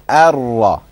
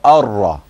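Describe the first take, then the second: First: The opening vowel is light; only the r is heavy. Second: The opening vowel is already heavy, with full mouth. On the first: The speaker calls it right. "So you go from Ar-Ra" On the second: The speaker calls it wrong. "What you don't do is go Ar-Ra. You don't start from A"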